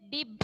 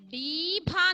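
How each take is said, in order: First: The first vowel is short. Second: The first vowel is long. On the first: The speaker calls it right. "ഹ്രസ്വമാണ് നമുക്ക് വേണ്ടത്" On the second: The speaker calls it wrong. "ഡീഭ എന്നാണ്"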